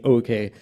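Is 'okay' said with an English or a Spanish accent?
English. It is said with an English accent. "which is not exactly the same as saying okay"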